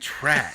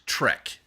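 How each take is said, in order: First: The vowel sounds like the one in 'cat'. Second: The vowel sounds like the one in 'bed'. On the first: The speaker calls it wrong. "You're saying track" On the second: The speaker calls it right. "it's Trek"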